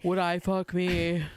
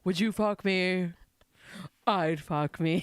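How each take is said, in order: First: Low, slow sassy drag drawl. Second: Low, slow sassy drag queen. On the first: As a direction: camp it up like a queen. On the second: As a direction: purr it out like a drag diva. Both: Retold or imitated. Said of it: "Your drag voice is so good".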